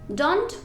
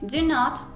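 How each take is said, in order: First: It is said as one contracted word. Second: It is said as two separate full words. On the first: "Puedes decir" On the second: "en lugar de"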